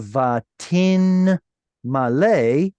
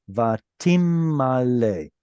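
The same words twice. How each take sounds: First: "vatin malay" with a clear n closing "vatin"; slow "vatin malay", n kept separate from the m; noon pronounced. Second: "Vatim malay" with the n turned into a long m; slow "Vatim malay", no n, just lengthened m; noon assimilated. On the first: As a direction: sound the n in "vatin", drawn out slowly before "malay". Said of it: "with a noon in the middle there". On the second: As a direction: hold a doubled m from "Vatim" into "malay", slowly. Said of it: "the noon assimilated into the next letter". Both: Shown as a demonstration.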